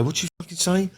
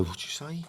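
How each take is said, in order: First: Much higher, sharper repeat of the challenge; mock challenge. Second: Higher, much softer menacing challenge; mock challenge. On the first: To someone who shouted at him, a high escalating challenge. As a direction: push the question up hard, squaring up. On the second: To someone who shouted at him, a soft high challenge. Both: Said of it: "I'd go".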